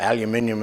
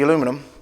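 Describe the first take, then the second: First: It is said the British way, five syllables. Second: It is said the American way, four syllables.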